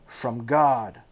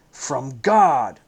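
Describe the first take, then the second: First: Said in the usual way. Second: Cries out loud and troubled; a startled, troubled outcry; echoing the words back in alarm; troubled cry. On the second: A narrator's reading. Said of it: "the rabbi cried out, troubled".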